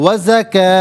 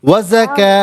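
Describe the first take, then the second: Both takes have the same delivery.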